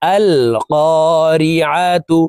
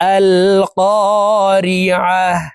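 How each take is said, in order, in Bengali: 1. শব্দটি স্পষ্ট 'tu' ধ্বনিতে শেষ হয়। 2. শব্দটি মৃদু 'h' ধ্বনিতে শেষ হয়। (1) "আইন জবর আ তা পেশতু" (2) "ওয়াকফের ক্ষেত্রে হার উচ্চারণ করব এবং হাকে সাকিন করে ফেলবো"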